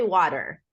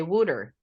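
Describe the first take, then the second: First: "water" with open "ah" and sounded r; American pronunciation. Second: "water" as Philly "wooder"; Philadelphia pronunciation. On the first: Shown as a demonstration. American host showing how she says "water", as "wah-ter". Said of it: "I say water". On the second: Retold or imitated. American host showing how Philadelphians say "water", as "wooder". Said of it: "in Philadelphia, they say water".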